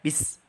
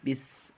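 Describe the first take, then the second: First: The s sound is cut off short. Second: The s sound is drawn out and hissing. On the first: The speaker calls it wrong. "jangan baca bis" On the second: The speaker calls it right. "Tapi bis dialirkan"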